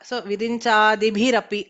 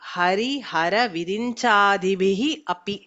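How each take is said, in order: First: The first word ends in an r sound. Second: The first word ends in a breathy h sound.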